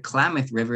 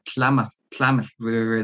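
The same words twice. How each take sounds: First: The name begins with a plain K sound. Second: The name begins with a lateral TL sound. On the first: This is the usual English name. "That's why they call it the Klamath River" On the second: This is the original native name. "that had the TL sound"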